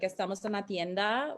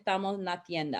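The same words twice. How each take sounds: First: The S sounds are fully pronounced. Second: The S sounds are aspirated or dropped. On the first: "a simple sentence like" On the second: "cut the S off um, from words"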